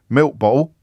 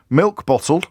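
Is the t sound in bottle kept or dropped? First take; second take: dropped; kept. First: The t sound in bottle is dropped. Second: The t sound in bottle is clearly pronounced.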